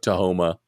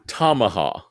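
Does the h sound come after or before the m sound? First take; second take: before; after. First: The h sound comes before the m sound. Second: The h sound comes after the m sound. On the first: The speaker calls it wrong. "we're pronouncing it wrong" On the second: The speaker calls it right. "so it's Tamaha"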